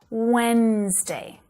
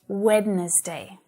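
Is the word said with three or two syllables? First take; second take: two; three. First: The word is said with two syllables. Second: The word is said with three syllables. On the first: The speaker calls it right. "it only has two" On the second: The speaker calls it wrong. "I still hear my students saying Wednesday. So it doesn't have three syllables"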